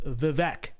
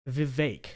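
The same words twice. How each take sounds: First: Vivek said vih-VECK, short e like in neck; phonetic pronunciation. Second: Vivek said vih-VAKE, second syllable rhyming with make; original pronunciation. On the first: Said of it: "pronounce it ... in the phonetic way". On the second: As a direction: Vivek with a long ay sound: vi-VAYK. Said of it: "changing the way he pronounces his name". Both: Shown as a demonstration.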